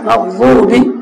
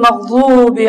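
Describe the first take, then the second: First: The vowel is kept short. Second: The vowel is drawn out long. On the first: The speaker calls it right. "ছোট করো" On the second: The speaker calls it wrong. "লম্বা করলাম"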